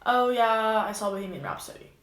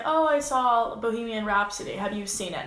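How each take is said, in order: First: Flat, uninterested. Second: Interested, chatty reply that invites more talk; engaged answer. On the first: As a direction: shut the conversation down with a limp answer. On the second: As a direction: sound keen to chat about the movie. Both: Shown as a demonstration. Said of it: "Now, if I was just like".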